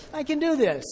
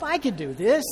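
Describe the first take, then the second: First: Much higher and louder, near a shout; the climax of a pep talk, all in; final punch of a building chant; triumphant self-encouragement. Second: Louder, higher pep talk to himself; first push of a building chant; rising self-encouragement. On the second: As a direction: psych yourself up, getting louder. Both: Retold or imitated.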